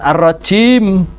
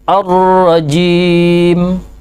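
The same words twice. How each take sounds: First: The j drifts toward a voiceless ch sound. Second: The j is a clear, voiced j sound. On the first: The speaker calls it wrong. "Jangan ar-rajim" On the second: The speaker calls it right. "Terus ar-rajim"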